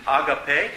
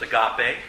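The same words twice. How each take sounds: First: AGAPE stressed at the front, AH-guh-pay; stress on first syllable. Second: AGAPE stressed in the middle, uh-GAH-pay; stress on second syllable. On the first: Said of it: "what syllable you put the emphasis". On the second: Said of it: "sometimes pronounced agape". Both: Shown as a demonstration.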